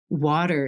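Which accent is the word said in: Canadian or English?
Canadian. It is said in a Canadian accent. "I'll say water here"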